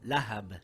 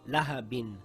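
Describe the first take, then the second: First: The word ends on a bare b sound. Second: The word ends with an -in sound. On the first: The reading stops on this word. "Now we read it as lahab and not lahabin" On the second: The reading continues without stopping. "It reads lahabin"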